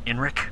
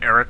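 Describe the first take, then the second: First: The name is said with an n before r. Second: The name is said with no n before r. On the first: The speaker calls it right. "It's actually Enric" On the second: The speaker calls it wrong. "we've been mispronouncing his name"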